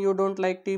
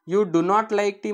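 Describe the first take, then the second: First: 'Do not' is contracted into one word, 'don't'. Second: 'Do not' is said as two full words. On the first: The speaker calls it right. "Shortcut बोलायचं आहे" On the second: The speaker calls it wrong. "You डू नॉट like tea म्हणण्यापेक्षा"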